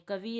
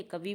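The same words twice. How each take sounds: First: Said in the usual way. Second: Second कवि said as kavee; कवि with a long "ee" ending; long final vowel. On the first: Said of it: "कवि है". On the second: Shown as a demonstration. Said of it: "कवि बोल देते हैं".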